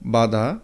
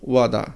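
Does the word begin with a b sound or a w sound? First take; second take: b sound; w sound. First: The word begins with a b sound. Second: The word begins with a w sound. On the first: "যেমন বাদা" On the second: "হিন্দিতে উচ্চারণ হবে ওয়াদা"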